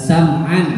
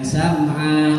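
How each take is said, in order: First: The word is read in full, as written. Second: The word is cut short in a stop form. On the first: The reader continues without stopping here. The speaker calls it right. "dibaca apa adanya" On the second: The reader stops here before the stop sign. The speaker calls it wrong.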